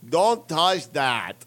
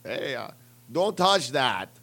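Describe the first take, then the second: First: Put-on very slow, louder drunken Russian accent; hammed-up Russian accent. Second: Put-on slow slurred Russian accent; loopy Russian cosmonaut, heavy accent; mock Russian accent; drunk Russian accent. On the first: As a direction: slur it like a punch-drunk Russian. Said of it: "You just sound drunk". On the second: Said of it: "need to learn how to do a better Russian accent".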